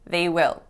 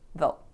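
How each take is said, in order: First: It is said as two full words. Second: It is shortened to one syllable. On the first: "unless it's the stressed part of a sentence" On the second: "that will become they'll"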